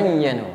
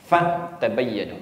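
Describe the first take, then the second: First: The word is said joined, without a break. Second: There is a break after the first syllable.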